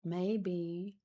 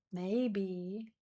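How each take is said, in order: Both takes have the same delivery.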